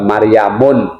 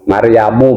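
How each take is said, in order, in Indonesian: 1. Nama itu diakhiri dengan bunyi n. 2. Nama itu tidak diakhiri dengan bunyi n.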